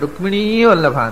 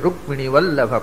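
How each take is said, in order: First: The last vowel of Rukmini is drawn out long. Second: The last vowel of Rukmini is kept short. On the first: The speaker calls it wrong. "ಹಾಗೆ ಎಳೆದ್ಬಿಟ್ರೆ ಅದು ಅದು ಮೀಟ್ರೇ ಇಲ್ಲ" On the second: The speaker calls it right. "ನಾಲ್ಕೇ ಮಾತ್ರೆಯಲ್ಲಿ ಬರಬೇಕು"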